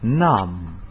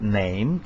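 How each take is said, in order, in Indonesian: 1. Vokal itu terdengar seperti 'ah', seperti dalam bahasa Jerman. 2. Vokal itu terdengar seperti 'ay', seperti dalam bahasa Inggris modern. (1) "tetapi nam" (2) "Saat itu diucapkan tidak name"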